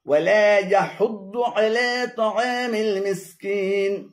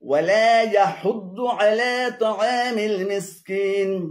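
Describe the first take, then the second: No difference in how they are said.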